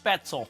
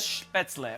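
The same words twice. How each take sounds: First: It is said with an American pronunciation. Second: It is said with a German pronunciation.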